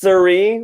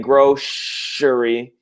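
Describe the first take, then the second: First: The middle consonant is an s sound. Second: The middle consonant is an sh sound. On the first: "with like a s" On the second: "if we want to be a little bit more Romani"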